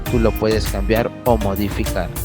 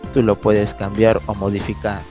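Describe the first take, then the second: The two takes are said the same way.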